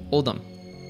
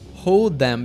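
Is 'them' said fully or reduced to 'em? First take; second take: reduced; full. First: Them is reduced to a short em. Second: The word them is said in full.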